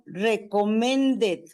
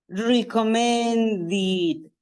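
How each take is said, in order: First: The ending is said with an 'e' vowel. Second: The ending is said with an 'i' vowel. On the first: The speaker calls it wrong. "Pero yo no digo recommended" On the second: The speaker calls it right. "esta E se convierte en I"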